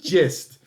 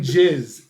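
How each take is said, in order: First: The word ends with a clear t sound. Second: The word ends without a final t sound. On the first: The speaker calls it right. "It's the gist. ... T" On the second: The speaker calls it wrong. "stop saying jizz"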